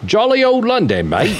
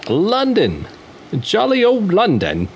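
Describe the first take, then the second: First: Put-on bigger, higher over-the-top British accent; mock British accent. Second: Hammed-up cockney-ish London voice, pitched up; a first playful stab at a British accent; mock British accent. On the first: Host retrying his London band intro in a hammed-up British accent. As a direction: ham up a jolly London geezer. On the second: Podcast host introducing a London band in a mock British accent. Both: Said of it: "the impersonation I did, the little accent".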